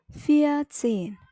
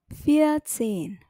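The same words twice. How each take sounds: No difference in how they are said.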